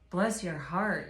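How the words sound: It is said warmly and sincerely.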